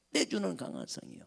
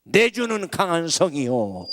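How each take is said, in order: First: The same words repeated soft and hushed; hymn line echoed softly. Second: Loud, ringing proclamation of the hymn title; hymn line proclaimed. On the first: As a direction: let the echo fall quiet and inward. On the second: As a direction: declare it like a battle cry. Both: Shown as a demonstration. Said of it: "그때 부른 찬송이".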